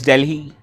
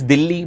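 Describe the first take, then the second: First: It is pronounced with English sounds. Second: It is pronounced with Hindi sounds. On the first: "but in English it's called as Delhi" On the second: "in Hindi it's called as Delhi"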